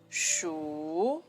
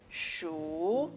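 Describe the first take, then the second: Both takes have the same delivery.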